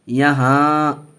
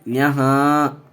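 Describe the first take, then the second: No difference in how they are said.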